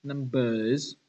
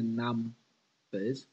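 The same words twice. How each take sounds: First: "numbers" wrongly stressed on bers, the second syllable. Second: "numbers" said slowly with weight on num, the first syllable; stress on NUM. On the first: Teacher showing what it's not, "numbers" stressed on bers. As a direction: shift the weight to the end of "numbers", num-BERS. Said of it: "'cause it's not". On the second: Teacher showing the right stress, "numbers" stressed on num. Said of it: "we emphasize the num". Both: Shown as a demonstration.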